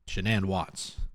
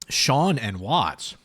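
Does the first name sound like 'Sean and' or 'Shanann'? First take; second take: Shanann; Sean and. First: The first name sounds like 'Shanann'. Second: The first name sounds like 'Sean and'. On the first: The speaker calls it right. "but it's Shanann" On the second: The speaker calls it wrong. "let's not be mispronouncing it"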